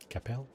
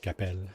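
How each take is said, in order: First: The name is said with an English pronunciation. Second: The name is said with a French pronunciation. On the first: "I guess that's probably how you say it" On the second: "That's how you say it in French"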